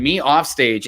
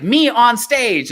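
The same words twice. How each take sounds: First: Said in the usual way. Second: High, drawn-out showman's flourish; big stretched-out performer voice; showy stage persona. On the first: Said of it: "just, like, sitting by himself". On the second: Retold or imitated. Retelling a meme of the on-stage self, showy and high. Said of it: "it's him as [name]".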